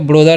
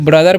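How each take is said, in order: First: The first vowel sounds like 'o' in 'go'. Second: The first vowel sounds like 'u' in 'but'. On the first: The speaker calls it wrong. "ब्रोदर नहीं" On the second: The speaker calls it right. "इसे ब्रदर पढ़ते"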